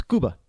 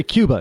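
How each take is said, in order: First: Cuba as "KOO-bah"; Spanish pronunciation. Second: Cuba as "KYOO-buh"; American pronunciation. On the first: Correcting American usage, Spanish-style Cuba. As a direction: Cuba with a pure oo, no Y glide. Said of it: "it's Cuba". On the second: Showing how Americans say it, English-style Cuba. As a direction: put a Y glide in Cuba. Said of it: "we say Cuba". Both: Shown as a demonstration.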